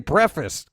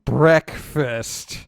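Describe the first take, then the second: First: The word is said quickly and clipped. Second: The word is said at a normal pace. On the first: "I'm a New Yorker. You got to say it fast" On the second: "instead of saying breakfast"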